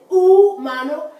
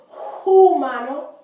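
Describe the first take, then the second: First: The first h is silent. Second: The first h is pronounced with breath. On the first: The speaker calls it right. "it's not there for sound" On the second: The speaker calls it wrong. "Notice I didn't say humano"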